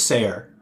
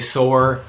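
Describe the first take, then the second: First: The name sounds like 'sayer'. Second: The name sounds like 'soar'. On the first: The speaker calls it right. "which I think I pronounced correctly" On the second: The speaker calls it wrong. "most people say soar"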